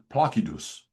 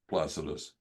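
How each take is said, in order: First: It is pronounced with reconstructed classical Latin sounds. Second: It is pronounced the common anglicized way. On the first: "reconstructed classical Latin pronunciation" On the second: "everybody pronounces it Placidus"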